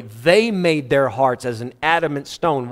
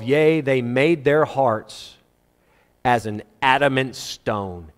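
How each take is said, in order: First: "They" stressed to put the blame on them. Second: Said in the usual way. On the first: Shown as a demonstration. Preacher correcting who hardened their hearts, stress on "They". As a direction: lean on "They", then carry the line through. Repeats verse, contrasting they with God.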